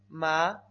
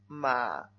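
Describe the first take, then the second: First: The pitch rises from middle to high. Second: The pitch dips low, then rises. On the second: "Vamos al tercero"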